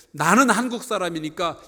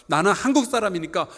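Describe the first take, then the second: No difference in how they are said.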